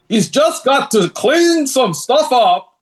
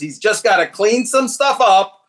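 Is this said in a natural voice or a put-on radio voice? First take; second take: radio voice; natural. First: It is said in a smooth, put-on radio voice. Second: It is said in a plain, natural speaking voice.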